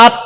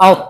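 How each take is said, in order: First: "আত" with a thin Arabic t; light ta. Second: "আউত" with heavy rounded ta; rounded mouth. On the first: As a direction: say "আত" open-mouthed, ending on a light ta. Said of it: "হামজা তা জবর". ("আত"-এ পাতলা তা) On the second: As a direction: round the lips and fill the mouth with air for "আউত". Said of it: "মুখ গোল হবে". (মুখ গোল করে ভারী "আউত") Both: Shown as a demonstration.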